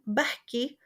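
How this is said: It is said in a Palestinian accent. "in Palestinian"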